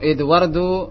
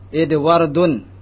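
First: The word ends in -u, without a final n. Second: The word ends in -un, with a final n. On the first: The speaker calls it right. "Yang benar adalah" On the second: The speaker calls it wrong. "tidak boleh"

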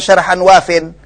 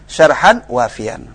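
First: The last word ends in 'in', dropping the ya. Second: The last word keeps the ya, ending in 'yan'. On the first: The speaker calls it wrong. "enggak bisa katakan syarhan wafin" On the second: The speaker calls it right.

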